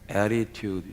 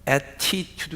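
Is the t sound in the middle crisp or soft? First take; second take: soft; crisp. First: The middle t is softened into a flap. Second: The middle t is pronounced crisp and hard. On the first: The speaker calls it right. "이 T가 있으면 연음이 됩니다" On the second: The speaker calls it wrong. "attitude 하는 게 아니고요"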